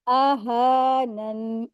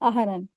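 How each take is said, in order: First: The vowel after the h is drawn out. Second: The vowel after the h is short. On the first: The speaker calls it right. "हा के ऊपर खड़ी ज़बर है, दो हरकत खींचेंगे" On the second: The speaker calls it wrong. "बहुत से लोग यही गलती करते हैं"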